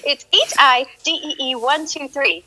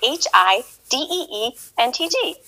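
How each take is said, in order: First: H I D E E one two three spelled slowly, letter by letter; fixing her in-game name for the chat, slowly; slow correction. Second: Said in the usual way. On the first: Real, not acted. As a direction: correct yourself, spelling it out carefully. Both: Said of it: "Oh, no, no, it's not".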